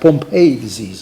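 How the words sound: Pompe is said the American way. "Americans say Pompe disease"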